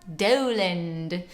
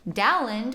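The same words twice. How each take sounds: First: The name has the older, sixteen-hundreds vowel. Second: The name has the modern English vowel.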